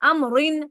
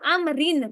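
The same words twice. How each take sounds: First: The r sound is heavy and full. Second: The r sound is light and thin. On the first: The speaker calls it wrong. "मैं ये नहीं पढ़ी पढ़ रही" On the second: The speaker calls it right. "रा को बारीक कर रही हूँ"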